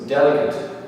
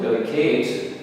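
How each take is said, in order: First: The stress is on the first syllable. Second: The stress is on the last syllable. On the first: "the first syllable is the strong one, so the last syllable is the weak" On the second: "If this last syllable were the strong one"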